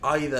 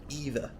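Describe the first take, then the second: First: It is said with a British pronunciation. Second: It is said with an American pronunciation. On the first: "is supposed to be the British pronunciation" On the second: "is the American pronunciation"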